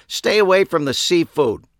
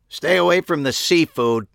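First: Loud, high stern repeat; loud warning. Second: Sharp loud bark, high and forceful; barked warning. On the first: A narrator's reading. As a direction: hammer the warning home. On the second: Acted. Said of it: "a voice barked at me".

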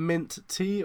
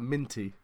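First: "mint tea" as two words, "mint" then "tea"; two separate words. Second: "minty" run together, stressed on the first syllable; one word. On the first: Checking the word with a friend, "mint tea" said as two words. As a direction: split "mint tea" so each word stands alone. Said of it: "is that mint tea or is that minty". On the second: Checking the word with a friend, "minty" said as one word. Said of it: "or is that minty". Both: Shown as a demonstration.

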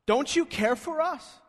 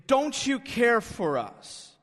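First: High, pointed accusation on you; accusing. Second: Slow, loud and demanding; presumptuous. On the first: Disciples accusing Jesus of not caring, accusing. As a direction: make the question an outright accusation. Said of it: "is an accusation". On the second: Disciples challenging Jesus in the storm, presumptuous. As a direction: throw the question out like a presumptuous demand. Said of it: "And they say presumptuously". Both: Retold or imitated.

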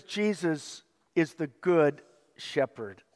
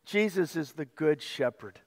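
First: Slow down on Jesus is the good shepherd, weighing each word; slow, deliberate reading. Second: Said in the usual way. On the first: Shown as a demonstration. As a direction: read it out slowly, word by word. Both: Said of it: "I want you to see this".

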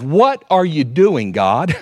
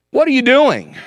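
First: Said in the usual way. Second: Pleading cry. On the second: Acted. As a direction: ask it again as a desperate plea, much higher. Repeated complaint, much higher.

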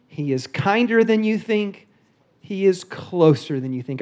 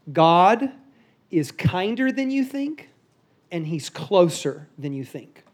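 First: Slow, deliberate stress on "kinder" and "closer"; slow repeated key phrase. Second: Slow, deliberate emphasis on "kinder" and "closer"; key phrase, slow and weighty. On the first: Pastor repeating the takeaway to the church, slow and emphatic. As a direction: say the takeaway slowly, with weight. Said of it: "all you have to remember". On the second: Pastor giving men the one line to remember, slow and emphatic. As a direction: spell out the takeaway slowly. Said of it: "This is all you have to remember". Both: Shown as a demonstration.

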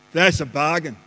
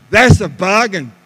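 First: Said in the usual way. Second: "bargain" hit loud and firmly; emphatic approval. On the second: Shown as a demonstration. Husband approving his wife's sale purchase, "bargain" loud and emphatic. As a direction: punch out "bargain" with loud conviction. Repeats the reply with force.

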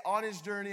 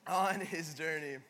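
First: Louder, lifted on ON, a cue for the room; model line. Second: Slow and falling, weight on ON; title line. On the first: Pastor cueing the church to repeat it, rising. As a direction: set the phrase for them to echo. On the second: Pastor declaring the sermon title, slow and falling. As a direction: land the title slowly. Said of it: "the title of this morning's talk is". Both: Shown as a demonstration.

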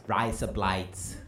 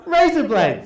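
First: Put-on Australian accent. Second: Broad Aussie razor blades, raised; Australian accent. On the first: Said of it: "You can say". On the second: Shown as a demonstration. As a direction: say razor blades like rise up lights. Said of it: "Put 'em together".

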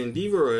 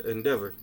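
First: "Endeavor" said in-DEE-ver; long-E pronunciation. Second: "Endeavor" said in-DEV-er; short-E pronunciation. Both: Shown as a demonstration. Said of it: "Is it Endeavor or Endeavor?".

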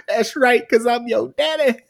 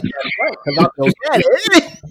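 First: High, loud mock delivery, lightly voiced; repeating the punchline with a grin; repeated daddy punchline. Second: High, laughing mock wrestler line; can barely get the punchline out for laughing; daddy punchline through laughter. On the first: Repeating the best line for cohosts, lightly voiced mock swagger. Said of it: "laughed so hard". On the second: Retelling the promo to cohosts, cracking up mid-line. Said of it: "He's like".

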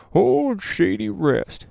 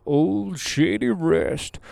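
First: Put-on high, slow, savoring the old name; old-timey drawn-out name. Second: Said in the usual way. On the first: Shown as a demonstration. Vlogger savoring a funny campsite name, drawn out high and slow. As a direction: stretch it out like an old prospector. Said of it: "It sounds like Wilford Brimley".

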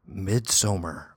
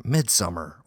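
First: MIDSOMMAR said with a long "so" in the middle; Swedish-style pronunciation. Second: MIDSUMMER said like the English word "summer"; English pronunciation. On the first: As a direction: say "Midsommar" as mid-SO-mer. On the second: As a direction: say "Midsummer" as mid-SUM-er. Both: Shown as a demonstration. Compares two pronunciations of title.

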